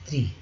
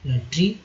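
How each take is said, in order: First: त्री with a dental t, not ट्री; correct dental tri. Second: ट्री with a hard retroflex ट, tongue curled back; ट्री as in English tree; wrong retroflex tri. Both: Shown as a demonstration. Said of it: "ट्री नहीं, त्री".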